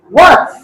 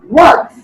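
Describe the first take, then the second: The two takes are said the same way.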